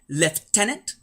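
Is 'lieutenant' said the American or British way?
British. It is said with a British pronunciation. "in a non-American English sort of way"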